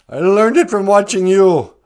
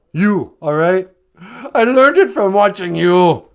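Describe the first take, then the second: First: Put-on loud quoted kid line, a bit higher. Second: Put-on loud, slightly higher defiant kid. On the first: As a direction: belt out the famous ad line like the kid. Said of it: "John Redcorn says". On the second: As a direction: fire it back at the dad like the kid. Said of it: "the kid looks up and he goes".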